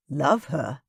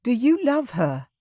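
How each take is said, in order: First: Said in the usual way. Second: Put-on higher, pleading young woman's voice; tearful Kayla. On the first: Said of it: "I repeated". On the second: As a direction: ask it through held-back tears. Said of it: "She gulped audibly".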